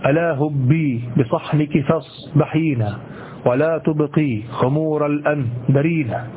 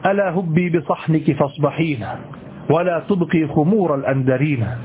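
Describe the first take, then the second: First: The metrical beat is marked out heavily. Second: The metrical beat stays subdued under natural phrasing. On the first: The speaker calls it wrong. "لا تقول مثلا ... أقول لا تظهره هكذا" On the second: The speaker calls it right. "أنت لن تظهرها مستقلة هكذا، ولكن لا تظن أنها ستغيب"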